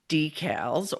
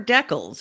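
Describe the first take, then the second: First: It is said in a non-Canadian pronunciation. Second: It is said in a Canadian pronunciation.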